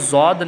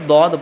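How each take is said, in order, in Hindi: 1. यह z जैसी आवाज़ से शुरू होता है। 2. यह d जैसी आवाज़ से शुरू होता है। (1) "इसको जौद ना पढ़े" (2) "बल्कि दौद पढ़े"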